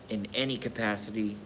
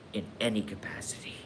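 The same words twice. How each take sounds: First: Said in the usual way. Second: Whispered echo. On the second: Shown as a demonstration.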